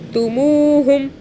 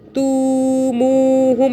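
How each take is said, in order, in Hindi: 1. सिर्फ दूसरा अक्षर लंबा खींचा जाता है। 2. पहला अक्षर लंबा खींचा जाता है। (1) "सिर्फ मुंह को खींचना है" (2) "तू मुहुम ऐसे नहीं पढ़ना।"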